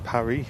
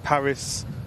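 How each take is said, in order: First: The name is pronounced the French way. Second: The name is pronounced the English way. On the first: "but in the French call it Paris" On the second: "We call it Paris"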